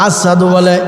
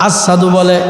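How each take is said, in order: Both takes have the same delivery.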